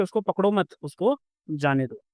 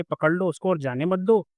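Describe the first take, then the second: First: Raised "उसको पकड़ो मत", then falling "उसको जाने दो"; second comma meaning. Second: Group "पकड़ लो उसको", then "और जाने मत दो"; first comma meaning. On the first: Teacher explaining the second sentence, "मत" tied to "पकड़ो". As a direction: break after "मत", dropping on "जाने दो". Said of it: "दूसरा कह रहा है कि". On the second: Teacher explaining the first sentence, "मत" tied to "जाने". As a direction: keep "जाने मत दो" together as the prohibition. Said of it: "पहले ये कह रहा है कि". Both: Shown as a demonstration.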